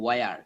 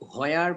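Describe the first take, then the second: First: The word starts with a w sound. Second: The word starts with an h sound. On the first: The speaker calls it right. "আমরা বলবো ওয়ার" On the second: The speaker calls it wrong. "হোয়ার বা হুয়ার না বলে"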